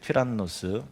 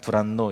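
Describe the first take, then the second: First: The name begins with a t sound. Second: The name begins with a soft d sound. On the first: This is the original Greek form of the name. "헬라 단어는 튀란노스고" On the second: This is the Korean Bible rendering of the name. "우리는 두란노 이렇게 했는데"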